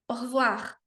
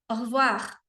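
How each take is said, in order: No difference in how they are said.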